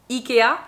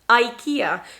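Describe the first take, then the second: First: It is said with a French pronunciation. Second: It is said with an English pronunciation. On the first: "in French, we are going to say IKEA" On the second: "But in English, we are going to say IKEA"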